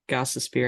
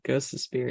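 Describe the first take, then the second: First: The first syllable sounds like 'goss'. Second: The first syllable sounds like 'ghost'. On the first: The speaker calls it right. "it's Gossosphere" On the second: The speaker calls it wrong. "but it's not Ghostosphere"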